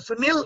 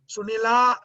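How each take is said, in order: First: The name ends with no final vowel. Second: The name ends with a long final vowel. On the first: "Sunil is ardhamatra" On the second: "Sunila is going to be two matras"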